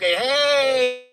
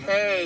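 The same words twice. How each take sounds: First: It sounds warm and romantically interested. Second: It sounds cold, like greeting a stranger.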